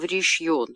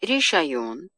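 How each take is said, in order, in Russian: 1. В слове два слога, средний гласный выпадает. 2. В слове три слога, средний гласный полный. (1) "переходит в решьон, поскольку камац оказывается далеко от ударения" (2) "вообще-то слово «решайон»"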